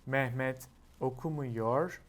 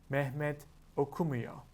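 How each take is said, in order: First: The verb is said in its full form. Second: The verb is said in a shortened form.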